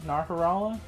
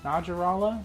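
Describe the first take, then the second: First: The middle consonant is an H sound. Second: The middle consonant is a J sound. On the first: "I always pronounce the J as an H" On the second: "but maybe that's not right"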